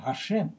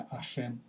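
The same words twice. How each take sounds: First: ГАШЕМ opening on a breathy voiced h; с начальным «г». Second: АШЕМ starting straight on the vowel, no h; без начального «г». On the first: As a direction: say ГАШЕМ with the h clearly sounded. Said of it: "Пиши и выговаривай". («Гашем» с произнесённым придыхательным «г») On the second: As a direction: drop the h, say a softer АШЕМ. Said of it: "совсем не произносится это га". («Ашем» с гласного, без «г») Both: Shown as a demonstration.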